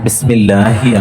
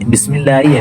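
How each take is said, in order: First: The ending is said as hi with h. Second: The ending is said as yi without h. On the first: The speaker calls it right. "ബിസ്മില്ലാഹി ആണ്" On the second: The speaker calls it wrong. "ബിസ്മില്ലായി അല്ല"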